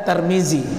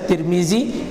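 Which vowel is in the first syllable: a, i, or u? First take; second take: a; i. First: The first syllable has the vowel a. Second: The first syllable has the vowel i. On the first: The speaker calls it wrong. "tidak ada Tarmizi" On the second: The speaker calls it right. "bisa dibaca Tirmizi"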